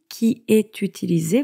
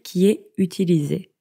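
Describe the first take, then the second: First: The t is sounded, linking est to utilisé. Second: The t is silent, est and utilisé unlinked.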